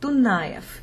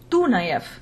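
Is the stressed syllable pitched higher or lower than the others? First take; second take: lower; higher. First: The stressed syllable is pitched lower than the others. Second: The highest-pitched syllable is treated as the stressed one. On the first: The speaker calls it right. "But the stress is on Dunayev" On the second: The speaker calls it wrong. "most Americans, including myself for a time, called him Dunayev, because that was the highest pitched syllable"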